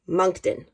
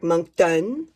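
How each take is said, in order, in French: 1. Il est prononcé avec un accent anglais. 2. Il est prononcé avec un accent chiac. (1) "en anglais, je dirais, je dirais Moncton" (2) "Mais en chiac"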